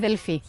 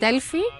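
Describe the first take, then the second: First: The name is said with softer sounds. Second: The name is said with harder sounds. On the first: The speaker calls it right. "It's actually Delphi. It's softer" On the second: The speaker calls it wrong. "People like to call it, uh, to pronounce it Delphi"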